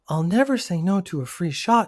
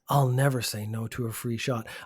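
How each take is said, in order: First: It is read in a put-on girl's voice. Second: It is read in his normal voice.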